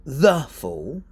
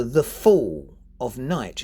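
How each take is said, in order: First: THE punched hard before fall; over-emphasised "the", then "fall"; stress on THE. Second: Light "the", strong slow FALL, then night; "fall" and "night" stressed, "the" and "of" light. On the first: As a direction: put all the weight on "the". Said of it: "You wouldn't say". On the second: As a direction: land on "fall", passing lightly over "the". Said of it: "the is very often not emphasised". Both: Shown as a demonstration.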